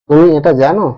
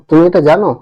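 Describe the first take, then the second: The two takes are said the same way.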